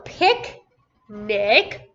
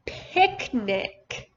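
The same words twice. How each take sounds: First: PICNIC in two separate beats, long pause after "pic"; split syllables. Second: Said in the usual way. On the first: Shown as a demonstration. Teacher breaking a word down for a student, split syllables. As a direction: say "picnic" as pic... nic, each part on its own. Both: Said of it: "what's the whole word?".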